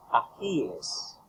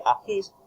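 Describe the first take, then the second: First: "ajíes" spoken very slowly, every syllable clear; slow, careful "ajíes" with a falling end; correct plural. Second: "ajís" said as the wrong plural with a long final s; "ajís" with the s drawn out, rising. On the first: Tutor spelling out the correct "ajíes" for students. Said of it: "se dice". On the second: Tutor showing students the wrong "ajís". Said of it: "No se dice". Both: Shown as a demonstration.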